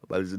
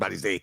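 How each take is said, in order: First: The name ends in an 'ee-ah' sound. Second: The name ends in an 'ay' sound. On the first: The speaker calls it right. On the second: The speaker calls it wrong.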